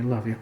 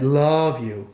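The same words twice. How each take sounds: First: The vowel in love is short. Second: The vowel in love is drawn out.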